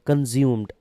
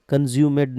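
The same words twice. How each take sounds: First: कंज्यूम्ड with the final d joined straight onto m; no vowel before the last d in कंज्यूम्ड; loud, firm कंज्यूम्ड, ending in "-म्ड"; correct -ed reading. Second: कंज्यूमेड with a full extra "med" syllable at the end; loud, mistaken reading कंज्यूमेड, ending in "-मेड"; wrong -ed reading. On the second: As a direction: sound the e of -ed in कंज्यूमेड. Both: Shown as a demonstration. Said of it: "कंज्यूमेड नहीं पढ़ेंगे".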